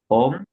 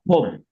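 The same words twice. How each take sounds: First: The first consonant has no puff of air. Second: The first consonant has a puff of air. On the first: The speaker calls it wrong. "like not" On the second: The speaker calls it right. "aspirated, with air coming out"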